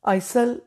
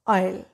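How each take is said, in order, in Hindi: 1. इस शब्द में s ध्वनि सुनाई देती है। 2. इस शब्द में कोई s ध्वनि सुनाई नहीं देती। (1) "आइसल नहीं बोलेंगे" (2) "एस इज साइलेंट"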